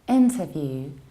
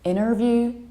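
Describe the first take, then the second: First: The T after the N is clearly pronounced. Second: The T after the N is dropped. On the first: "in British accents, we pronounce N and T in a very clear" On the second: "American accent, we tend to skip T"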